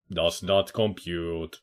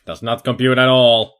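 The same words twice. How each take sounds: First: Slow, soft deadpan robot voice; quiet mock robot. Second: Louder flat robot declaration; loud mock robot. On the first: Player jokes his brain can't process it, slow soft robot voice. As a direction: murmur it like a confused machine, slowly. Joking robot line, then repeat. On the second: Player jokes his brain can't process the girl, loud mock robot. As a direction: blurt it out like an overloaded machine.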